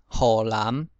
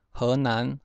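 First: 河南 as "hô-lâm"; Hokkien reading. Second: Said in the usual way. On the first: Shown as a demonstration. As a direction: say 河南 in Hokkien, l onset and final m on 南. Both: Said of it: "省份从第一个".

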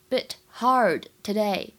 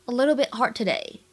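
First: "bit hard today" slowly, one word at a time; separate words. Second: "a little bit hard today" linked, with t and d unreleased; unreleased stops. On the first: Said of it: "这三个词呢出现在一起的时候". (“bit hard today”逐词分开慢读) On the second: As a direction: run "hard today" together, dropping the d release. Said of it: "后两者当中呢有完全失去爆破". (“a little bit hard today”连读，失去爆破) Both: Shown as a demonstration.

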